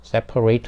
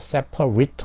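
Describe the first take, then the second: First: The last syllable sounds like 'ate'. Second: The last syllable sounds like 'it'. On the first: It is a verb meaning to divide. "동사인 경우에는 eight라고 발음이 되겠죠 ... separate 하면은 분리시키다" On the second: It is an adjective meaning divided. "형용사나 명사형이 될 때는 it로 발음이 된다 ... 형용사가 돼서 분리가 된"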